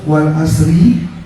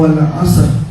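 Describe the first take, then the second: First: The phrase ends with a short i vowel. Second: The phrase stops sharply on the final r. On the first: The recitation continues into the next words. "kalau dibaca wasal hidup dia" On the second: The recitation pauses at this point. "kalau dibaca wakaf jadi wal asr"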